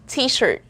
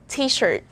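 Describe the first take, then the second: No difference in how they are said.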